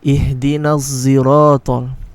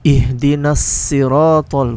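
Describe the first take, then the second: First: Siratal starts with a z-like sound. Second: Siratal starts with a plain, light s. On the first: "with a dha" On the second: "with a sin"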